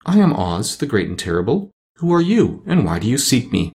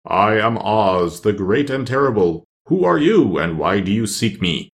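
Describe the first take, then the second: First: Sweet lady. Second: Slow, imposing voice of a giant head; great Oz head. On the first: The lovely lady greets the Scarecrow, lightly sweet. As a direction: introduce yourself sweetly as a grand lady. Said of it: "she looked upon him sweetly and said". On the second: The great head greets Dorothy in the throne room, slow and imposing. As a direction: announce yourself slowly as the great Oz. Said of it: "Dorothy heard a voice say". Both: A narrator's reading.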